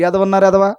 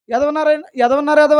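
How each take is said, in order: First: Said in the usual way. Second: Mock angry retort. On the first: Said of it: "అనాలా?". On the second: Shown as a demonstration. Preacher showing a believer firing back in a mild mock yell. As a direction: hurl the insult back. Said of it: "అన్నాడు అనుకోండి".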